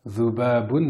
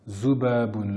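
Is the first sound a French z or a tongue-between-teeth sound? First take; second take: tongue-teeth sound; French z. First: It starts with the tongue tip at the teeth. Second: It starts with a plain French z sound. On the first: The speaker calls it right. "c'est une mouche avec un zel. Rappelez-vous, on met le bout de la langue sur l'extrémité des incisives supérieures" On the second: The speaker calls it wrong. "le même Z que dans l'alphabet français"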